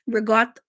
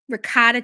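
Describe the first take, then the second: First: Ricotta is said in the Italian-American way. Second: Ricotta is said in the Americanized way. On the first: The speaker calls it right. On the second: The speaker calls it wrong.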